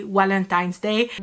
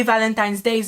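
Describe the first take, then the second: First: Valentine's Day with a W sound, Walentine's Day; Thai pronunciation of V. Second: Said in the usual way. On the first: Shown as a demonstration. Thai speaker turns the V of Valentine's Day into W. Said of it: "you will say". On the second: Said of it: "For example, to say".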